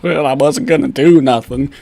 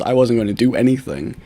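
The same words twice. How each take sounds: First: Mock bad grammar. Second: Said in the usual way. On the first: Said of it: "that's horrible English".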